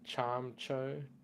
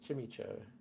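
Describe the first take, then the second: First: The first syllable sounds like 'charm'. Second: The first syllable sounds like 'chim'. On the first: The speaker calls it right. "I was corrected the other day with the pronunciation of this to Charm something" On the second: The speaker calls it wrong. "I used to say Chimicho"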